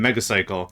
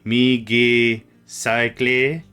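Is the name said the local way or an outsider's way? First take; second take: local; outsider. First: The name is said the usual local way. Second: The name is said an outsider's way. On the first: "my last name" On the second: "if you were not from round here ... you might be Migi Cycle"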